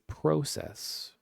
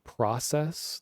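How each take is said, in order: First: It is said in a Canadian accent. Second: It is said in a general American accent. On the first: "they'll say process" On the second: "instead of saying process"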